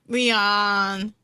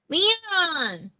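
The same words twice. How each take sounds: First: It is said hesitantly, without conviction. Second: It is said firmly, with conviction.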